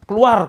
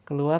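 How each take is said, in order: First: It is said loudly and forcefully. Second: It is said softly and gently. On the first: The command is a real, threatening order. The speaker calls it right. "Ini jangan pelan-pelan" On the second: The command is polite and has no force. The speaker calls it wrong. "Kalau orang Jawa itu kan biasanya pelan tuh"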